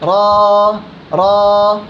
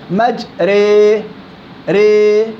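First: The vowel is a full open a sound. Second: The vowel is tilted toward an e sound. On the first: "فتحه" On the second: "حركه مماله"

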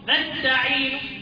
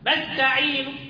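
The two takes are said the same way.

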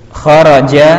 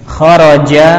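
No difference in how they are said.

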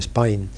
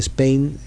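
First: Spain is said in an Australian accent. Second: Spain is said in a standard English accent. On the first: "ellos dicen Spain" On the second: "no se dice Spain en Australia"

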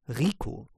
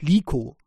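First: The name begins with an R sound. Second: The name begins with an L sound. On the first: The speaker calls it right. "sie heißt Rico" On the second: The speaker calls it wrong. "sie heißt nicht Liko"

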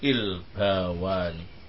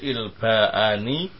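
First: A w sound comes before the ending -ani. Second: A glottal stop comes before the ending -ani. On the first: "bisa diganti dengan apa ini? Wawu" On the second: "Bisa tetap seperti semula"

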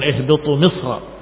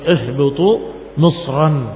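First: The last word ends without a final n sound. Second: The last word ends with a final n sound. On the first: This is the less accepted reading of the word. The speaker calls it wrong. "bukan ihbitu misra" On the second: This is the majority reading, meaning any city. The speaker calls it right. "dengan tanwin"

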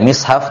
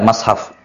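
First: The first vowel is an i sound. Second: The first vowel is an a sound.

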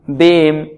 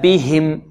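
First: The h sound is weak and barely heard. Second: The h sound is clearly and fully articulated. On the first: The speaker calls it wrong. "لا نقول إن ربهم بهم بهم، لا" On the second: The speaker calls it right. "لابد من إعمال المخرج فيها"

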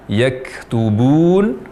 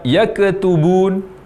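First: The k is released with a light breath. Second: The k has an echoing bounce after it. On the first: The speaker calls it right. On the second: The speaker calls it wrong. "terdengar berbunyi qalqalah atau suara pantulan"

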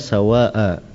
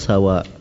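First: The final vowel is lengthened. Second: The final vowel is short. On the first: The speaker calls it right. "Harus dikasih alif di belakangnya. Lil itlak" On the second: The speaker calls it wrong. "Di sini tidak ditulis"

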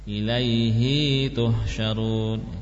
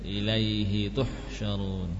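First: The final vowel of ilaihi is drawn out long. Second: The final vowel of ilaihi is kept short. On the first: The speaker calls it wrong. "Jadi jangan panjang. ... kurang tepat" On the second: The speaker calls it right. "pendek saja"

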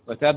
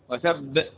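First: The final b ends plainly without a bouncing release. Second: The final b is doubled with a bouncing release. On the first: The speaker calls it wrong. "ما قلتش وتب وتب" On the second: The speaker calls it right. "الباء يوقف عليها بالقلقلة والتشديد، ... وتب هكذا"

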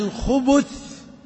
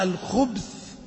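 First: The b is followed by a u vowel. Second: The b has no vowel after it. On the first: It is the plural meaning male devils. "ووردت الخبث بضم الباء" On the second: It means evil in general. "الخبث بالسكون الشر"

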